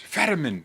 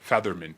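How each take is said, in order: First: The middle consonant is a plain 't' sound. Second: The middle consonant is a 'th' sound. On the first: This is how others say the name. The speaker calls it right. "everyone's like, [name], it's Fetterman" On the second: The name is mispronounced on purpose as a joke. The speaker calls it wrong. "I'm roasting him by mispronouncing his name"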